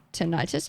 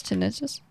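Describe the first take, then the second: First: "tinnitus" said tuh-NIGHT-us; "tinnitus" tried as tin-EYE-tus; long-i pronunciation. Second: "Tinnitus" said TIN-uh-tus, rising; "Tinnitus" tried as TIN-ih-tus, as a question; short-i pronunciation. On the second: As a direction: stress the first syllable of "Tinnitus". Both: Shown as a demonstration. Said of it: "How to pronounce".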